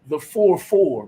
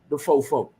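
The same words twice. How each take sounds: First: Each word is said fully and separately. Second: The words are reduced and run together. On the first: This is the standard way outsiders say it. "I'm gonna say it properly for y'all" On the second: This is how locals say it. "in Houston, Texas, we call it"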